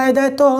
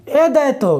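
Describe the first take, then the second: First: एदय तो said smoothly as one flowing word; एदय तो joined up as one continuous sound; run together as one word. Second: ए दैतो with a clear break after ए; ए and दैतो as two separate pieces; split into two parts. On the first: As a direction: blend एदय तो into a single run. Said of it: "अरे दैतो की बात नहीं है". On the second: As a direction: say ए, pause, then दैतो. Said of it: "ए दैतो, मैंने क्या बोला?". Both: Shown as a demonstration.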